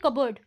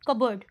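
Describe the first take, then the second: The two takes are said the same way.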